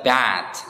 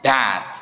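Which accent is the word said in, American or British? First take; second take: American; American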